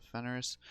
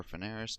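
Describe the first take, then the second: First: Fenris said in two syllables; first pronunciation. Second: Feneris said in three syllables; alternative pronunciation. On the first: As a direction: say Fenris short, as FEN-ris. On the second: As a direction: say Feneris with an extra vowel after the n. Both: Shown as a demonstration. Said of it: "depending on how you pronounce it".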